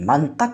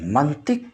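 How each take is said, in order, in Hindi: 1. t के बाद का स्वर 'a' है। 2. t के बाद का स्वर 'i' है।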